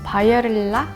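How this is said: It has simplified Korean-style pronunciation.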